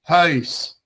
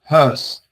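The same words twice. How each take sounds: First: The vowel ends in a y-like glide. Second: The vowel stays flat without a glide. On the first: "I kind of like a J, yeah, like huis" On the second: "we just pronounce it like huis, just like dry"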